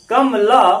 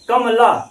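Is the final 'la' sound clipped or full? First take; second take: full; full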